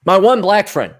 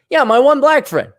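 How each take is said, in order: First: Said in the usual way. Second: Higher and louder, leaning on "Yeah"; punchline emphasis. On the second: Shown as a demonstration. Repeating his joke to the audience, louder and higher. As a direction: land it like a punchline.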